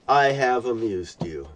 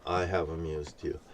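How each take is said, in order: First: Said in the usual way. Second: Much lower and softer, almost under breath; hushed repeat. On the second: Real, not acted. Speaking to God, echoing the line in a hush. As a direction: let it sink to a murmur.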